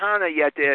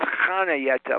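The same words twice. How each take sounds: First: The first syllable does not sound like 'ha'. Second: The first syllable sounds like a laughing 'ha'. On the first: The speaker calls it wrong. "Not Hana Yetta" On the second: The speaker calls it right. "like you're going to ha"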